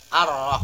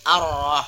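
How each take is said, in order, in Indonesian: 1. L artikel menyatu menjadi R ganda. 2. L artikel menyatu menjadi R ganda.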